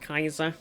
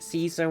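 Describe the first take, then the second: First: It begins with a hard K sound. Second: It begins with a soft S sound. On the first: "it is pronounced more like Kaiser" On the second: "we pronounce it Caesar"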